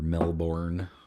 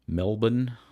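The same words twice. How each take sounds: First: It is said with a non-Australian pronunciation. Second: It is said with the Australian local pronunciation. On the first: The speaker calls it wrong. "Nobody down there says Melbourne" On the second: The speaker calls it right. "that's how they pronounce it down there"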